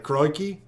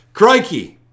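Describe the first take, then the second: First: Tentative attempt at an Australian accent. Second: Higher, louder Aussie exclamation; Australian accent. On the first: Host asking Australian viewer if this works, tentative Aussie accent. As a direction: try out a light Aussie accent, questioningly. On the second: Host retrying for a disapproving viewer, emphatic Australian accent. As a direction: punch out a second try at an Australian accent. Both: Shown as a demonstration. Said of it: "I don't approve the accent".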